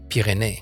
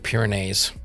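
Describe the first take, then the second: First: The name is said with a French pronunciation. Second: The name is said with an English pronunciation. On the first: The speaker calls it right. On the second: The speaker calls it wrong.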